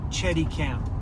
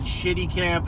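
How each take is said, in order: First: The first syllable sounds like 'chet'. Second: The first syllable sounds like 'shit'. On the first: The speaker calls it right. "It's Chetty" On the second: The speaker calls it wrong. "I always said Shitty Camp"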